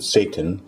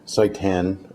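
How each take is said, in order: First: It sounds exactly like the word Satan. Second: It sounds different from the word Satan. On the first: The speaker calls it wrong. "maybe you pronounce it Satan" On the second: The speaker calls it right. "so I'm going to call it seitan"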